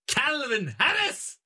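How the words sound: The name is said in a Scottish accent.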